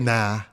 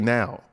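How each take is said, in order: First: The word ends in a flat 'ah' vowel. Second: The word ends in a full 'ow' glide. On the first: The speaker calls it wrong. "We don't say nah" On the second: The speaker calls it right. "the youth say now"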